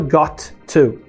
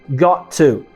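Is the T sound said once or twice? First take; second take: twice; once. First: The T sound is pronounced twice, separately. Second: The two T sounds are joined into one. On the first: The speaker calls it wrong. "A gente não pronuncia duas vezes, não fala got to" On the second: The speaker calls it right. "A gente juntou e fala got to"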